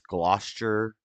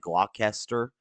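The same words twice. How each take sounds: First: The name is not pronounced the way it's spelled. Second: The name is pronounced just as it is spelled. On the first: The speaker calls it right. "but it's Gloucester" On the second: The speaker calls it wrong. "it's spelled like Gloucester"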